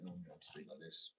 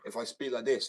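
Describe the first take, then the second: First: Low, soft and unprojected; natural speaking voice. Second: Raised, louder projected voice; added pitch. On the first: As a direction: drop to a deep, quiet everyday voice. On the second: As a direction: lift the voice so people can hear. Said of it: "I add this sort of pitch". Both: Shown as a demonstration.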